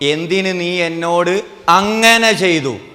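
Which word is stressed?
ചെയ്തു. The stress falls on the word ചെയ്തു. The act itself is the issue. "ആ ചെയ്തതാ പ്രശ്നം"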